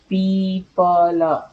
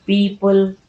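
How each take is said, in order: First: पीपल stretched very slowly with a falling end; teacher slowly sounding out पीपल to show its spelling; drawn-out pronunciation. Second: Said in the usual way. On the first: Shown as a demonstration. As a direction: draw out पीपल slowly so each sound can be heard. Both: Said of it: "sound को सुन करके".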